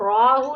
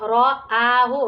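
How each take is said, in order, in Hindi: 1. 'Ra' बिना 'aa' के सीधे 'hu' में जुड़ जाता है। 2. 'ra' के बाद एक अलग लंबा 'aa' आता है। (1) "रॉहू नहीं आना" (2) "रॉ के बाद में आ है तो clearly टू letter I mean three letters का साउंड आना है"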